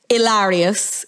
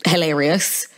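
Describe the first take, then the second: First: "hilarious" with the H dropped, as ee-LAH-ree-us; Spanish-style hilarious. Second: Said in the usual way. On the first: Shown as a demonstration. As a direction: say "hilarious" like the name Ilaria, silent H and open A. Pun on Ilaria, H dropped.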